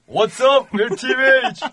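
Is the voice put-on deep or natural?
natural. The voice is at its natural pitch.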